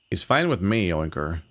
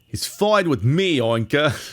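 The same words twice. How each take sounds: First: It is read in a plain, unaccented voice. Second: It is read in a put-on character accent. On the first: The speaker calls it wrong. "It sounds so stupid otherwise" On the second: The speaker calls it right. "his lines make any sense is if you actually have an accent"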